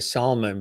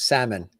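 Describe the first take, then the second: First: The name is said the Texan way. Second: The name is said the Northern way. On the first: "in Texas, they say salmon" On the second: "north of the Mason-Dixon line, it becomes salmon"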